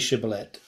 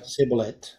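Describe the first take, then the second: First: The word begins with an sh sound. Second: The word begins with an s sound. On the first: The speaker calls it right. "the Ephraimites couldn't say Shibboleth" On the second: The speaker calls it wrong. "They could only say Shibboleth. They couldn't pronounce the CH"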